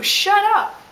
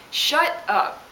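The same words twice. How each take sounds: First: "Shut up" much higher and louder, falling; mock yell. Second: A breathy "Shut up" as an aftershock; muttered repeat. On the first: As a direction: snap "Shut up" at him as a shriek. End of the imagined rant. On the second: Retold or imitated.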